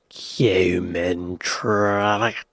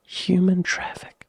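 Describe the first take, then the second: First: Very slow whisper, pitch dropping; drawn-out whisper. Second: Slow whispered title. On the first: Host repeating the film title, drawn-out whisper. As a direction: stretch the title out in a low whisper. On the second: Host savouring the film title, slow whisper. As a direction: breathe the title out slowly. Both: Shown as a demonstration.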